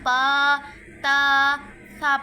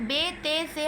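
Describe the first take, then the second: First: The letters end in an 'a' vowel, Arabic style. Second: The letters end in an 'e' vowel, Urdu style. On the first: The speaker calls it right. "यानी बा ता सा पढ़ना है" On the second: The speaker calls it wrong. "बे ते से हमने हरगिज़ नहीं पढ़ना"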